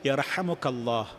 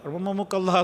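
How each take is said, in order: First: The phrase begins with a 'yar' sound. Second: The phrase begins with a 'rah' sound. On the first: The speaker calls it right. "ശരിക്ക് യർഹമുക്കല്ലാ" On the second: The speaker calls it wrong. "റഹ്മമുക്കല്ലാ എന്ന് പറയും"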